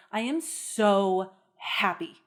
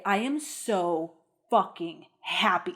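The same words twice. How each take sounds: First: Said in the usual way. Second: "so fucking happy" said slowly, leaning on "fucking"; emphatic curse. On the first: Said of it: "Like, I could say". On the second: Shown as a demonstration. Showing how a curse word adds emphasis. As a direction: drag out "I am so fucking happy" with weight on "fucking". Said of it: "That is more happy than the happy before".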